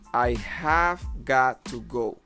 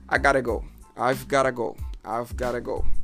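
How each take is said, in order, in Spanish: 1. Cada palabra se dice completa, sin reducir. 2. Las palabras se contraen y se unen rápido. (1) "La forma original normal" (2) "se diría de una manera más rápida"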